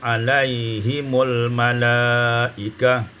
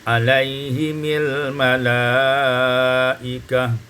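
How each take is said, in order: First: The vowel after m is u. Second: The vowel after m is i.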